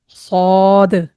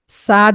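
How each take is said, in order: First: The letter is said with a heavy, full sound. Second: The letter is said with a light, thin sound. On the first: The speaker calls it right. "मोटी आवाज निकलेगी" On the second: The speaker calls it wrong. "साद नहीं"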